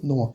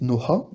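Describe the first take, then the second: First: The h sound is dropped completely. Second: The h sound is clearly pronounced. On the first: The speaker calls it right. "on va juste dire Noa" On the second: The speaker calls it wrong. "on va pas le prononcer Noha"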